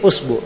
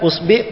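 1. Vokal setelah b adalah u. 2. Vokal setelah b adalah i.

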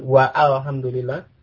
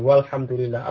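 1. Alif diucapkan sebagai vokal tersendiri sebelum lam. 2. Alif tidak diucapkan, langsung meluncur ke lam. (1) "Apa ada orang mengatakan waalhamdulillah?" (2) "Alifnya tidak diucapkan. Jadi langsung ke kelamnya"

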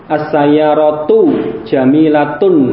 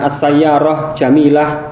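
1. Kata-katanya berakhir dengan vokal kasus penuh. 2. Kata-katanya berakhir tanpa vokal kasus di akhir. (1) "perlu dibaca dengan tepat, dengan jelas" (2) "kalau dibaca seperti itu, ya nanti ada yang kurang"

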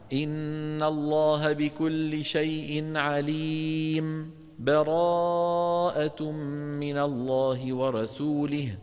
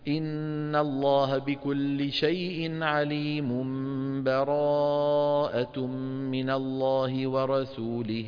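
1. بين الآيتين سكتة خفيفة قصيرة كأنها نَفَس. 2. الآيتان متصلتان بلا سكتة. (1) "والوجه الثالث أن تسكت كما فعلنا هنا" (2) "لك وجه ثاني أن تصل"

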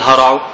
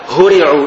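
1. يُنطق الفعل على النمط الصوتي للمبني للمعلوم. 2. يُنطق الفعل على النمط الصوتي للمبني للمجهول. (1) "لا تقل هرعوا" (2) "بالبناء المجهول"

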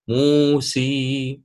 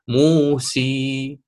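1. الحركة الأخيرة ياء كاملة. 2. الحركة الأخيرة ياء كاملة.

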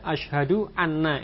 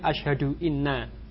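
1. Kata kedua diawali dengan vokal 'a'. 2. Kata kedua diawali dengan vokal 'i'. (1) "jika di fathah ya" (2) "tidak boleh"

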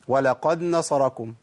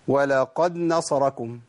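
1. يُدغم صوت الدال في النون التي بعده. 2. يُدغم صوت الدال في النون التي بعده.

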